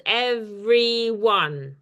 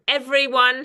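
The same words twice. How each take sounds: First: "Everyone" drawn out slowly in three beats; syllable by syllable. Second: Said in the usual way. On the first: Shown as a demonstration. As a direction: count out "Everyone" as ev-ry-one, very slowly. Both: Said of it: "has three syllables".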